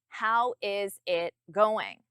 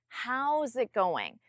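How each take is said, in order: First: How and is are said as two full words. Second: How and is are joined into one contracted word. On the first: The speaker calls it wrong. "If you say it without the contraction" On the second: The speaker calls it right. "A native speaker would say"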